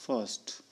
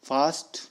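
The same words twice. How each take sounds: First: फर्स्ट with a short a; American short vowel in फर्स्ट. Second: फास्ट with a long open aa; British broad aa in फास्ट. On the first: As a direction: clip फर्स्ट short and soft. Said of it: "American English में अ". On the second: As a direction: draw out the aa in फास्ट. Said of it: "आ का use किया जाता है". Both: Shown as a demonstration.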